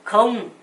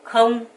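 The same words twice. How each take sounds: Both takes have the same delivery.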